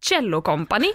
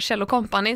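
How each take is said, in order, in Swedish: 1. Namnet uttalas som det engelska ordet cello. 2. Namnet uttalas med vanligt svenskt uttal.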